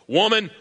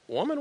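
First: The tone is stern and harsh. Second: The tone is warm and playful. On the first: God is annoyed with her. The speaker calls it wrong. "People typically read God this way" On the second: God is teasing her lovingly. The speaker calls it right. "What if he read it this way? Wink"

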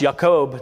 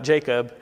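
First: The name begins with a Y sound. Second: The name begins with a J sound. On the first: This is the original Hebrew form of the name. The speaker calls it right. "Hebrew doesn't have a J sound" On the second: This is the later English form of the name. The speaker calls it wrong. "not Jacob"

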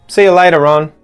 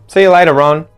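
Both takes have the same delivery.

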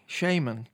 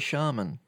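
First: The word is said the American way. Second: The word is said the British way. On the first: "I think Americans tend to say shaman" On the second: "British people tend to say shaman"

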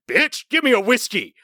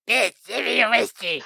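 First: It is said in a normal speaking voice. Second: It is said in a put-on gremlin voice.

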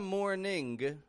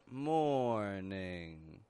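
First: The word ends with a released hard g. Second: The word ends in ng with no g. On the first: The speaker calls it wrong. "Not a morning" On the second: The speaker calls it right. "but morning"

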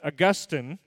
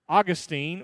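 First: The name is said the way theologians say it. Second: The name is said the common, everyday way.

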